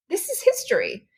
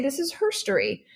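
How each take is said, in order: First: Said in the usual way. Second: Herstory said as HER-story, quoting her son; herstory pun. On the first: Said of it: "Or as my son would say". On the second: Retold or imitated. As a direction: play up "herstory" with a stressed HER. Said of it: "as my son would say".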